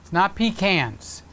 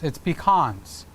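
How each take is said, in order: First: The word sounds like 'pee cans'. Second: The word does not sound like 'pee cans'. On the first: It names a chamber pot. The speaker calls it wrong. "A pecan is that thing that you keep under your bed at night" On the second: It names the nut you eat. The speaker calls it right.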